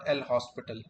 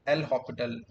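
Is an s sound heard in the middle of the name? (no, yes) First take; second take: yes; no. First: The name is said with an s sound. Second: The name is said without an s sound. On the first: The speaker calls it wrong. "not L hospital" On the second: The speaker calls it right. "it is pronounced like L'Hopital"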